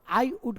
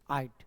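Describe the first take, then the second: First: Both words are said in full. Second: The words merge into one short syllable. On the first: "आई वुड को क्या बोलोगे" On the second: "apostrophe डी यानी उसको short form"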